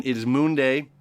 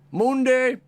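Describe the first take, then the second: First: Said in the usual way. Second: High, loud burst of glee; excited shout. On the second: Real, not acted. Astrologer announcing the day to viewers, excited high shout. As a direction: belt out the day name with joy. Repeats title with big excitement.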